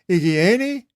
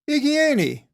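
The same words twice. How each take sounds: First: It is said as a question. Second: It is said as a statement. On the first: It asks whether someone is well. "Is he in health?" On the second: It answers that someone is well. "he's in health"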